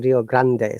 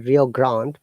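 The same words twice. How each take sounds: First: It is said with a Spanish pronunciation. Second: It is said with an English pronunciation. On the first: "but in Spanish" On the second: "In English"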